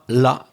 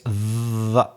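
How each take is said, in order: First: The word begins with an L sound. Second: The word begins with a voiced TH sound. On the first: The speaker calls it wrong. "So it's not la" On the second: The speaker calls it right. "it's the"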